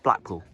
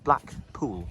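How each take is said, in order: First: It is said as one compound word. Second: It is said as two separate words. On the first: It names the seaside town. The speaker calls it wrong. "Not Blackpool" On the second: The speaker calls it right. "Two separate words"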